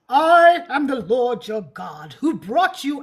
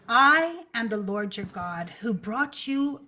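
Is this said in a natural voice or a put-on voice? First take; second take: put-on; natural. First: It is read in a put-on, godlike voice. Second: It is read in an ordinary speaking voice.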